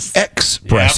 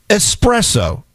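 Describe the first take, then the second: First: The word starts with an 'ex' sound. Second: The word starts with an 'es' sound. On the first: The speaker calls it wrong. "Not espresso" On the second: The speaker calls it right. "And it's espresso"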